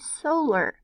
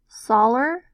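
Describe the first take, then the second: First: The first vowel is a long O sound. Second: The first vowel is a short O sound. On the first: The speaker calls it right. "have the long O sound" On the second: The speaker calls it wrong. "having short O"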